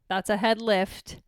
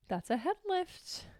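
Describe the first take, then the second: First: Said in the usual way. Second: Gasp, then soft, slow and amazed; hushed mock amazement; mock delighted gasp. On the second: Real, not acted. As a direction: marvel at the dog lifting its head.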